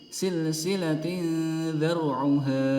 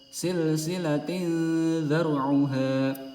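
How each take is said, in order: Both takes have the same delivery.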